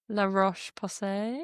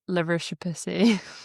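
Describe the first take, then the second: First: The name is said in its careful standard form. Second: The name is said in a mangled nickname form. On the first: The speaker calls it right. "It's correctly pronounced" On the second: The speaker calls it wrong. "amongst our group chat, we call it"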